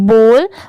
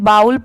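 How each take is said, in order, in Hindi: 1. स्वर 'oh' जैसा सुनाई देता है। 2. स्वर 'ow' जैसा सुनाई देता है। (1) "इसे हम क्या पढ़ते हैं" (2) "बहुत सारे लोग इसे बाउल पढ़ते हैं, बट वो रॉन्ग होता है"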